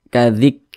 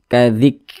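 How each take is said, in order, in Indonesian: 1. Huruf k dilepaskan dengan hembusan napas kecil. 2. Huruf k dilepaskan dengan hembusan napas kecil.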